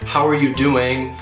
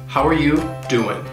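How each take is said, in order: First: Every word is said fully, in a consoling way. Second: The words are reduced and the final G is dropped. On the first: The asker truly wants to know how a sad person is. "it's more in a consoling manner" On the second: It is just a casual hello. "the G in doing will get dropped"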